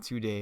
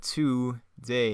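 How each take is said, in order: First: Said in the usual way. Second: "two day" as two slow, separate words; split "two day". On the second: Shown as a demonstration. Reader pointing out his typo in the script, "two day" split in two. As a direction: stress "two" fully, then a separate "day". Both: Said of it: "I put two day, not today".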